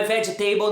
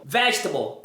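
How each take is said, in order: First: "vegetable" ending in "table"; wrong pronunciation. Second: Weak falling ending on "Vegetable"; correct pronunciation. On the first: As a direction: say "vegetable" as veh-jeh-TAY-bol. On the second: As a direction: lower "Vegetable" stressed on VEJ. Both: Shown as a demonstration. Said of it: "não é vegetable".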